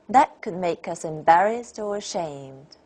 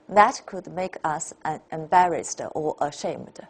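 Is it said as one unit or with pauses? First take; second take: one unit; with pauses. First: It is said as one unbroken unit. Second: It is broken up by a pause.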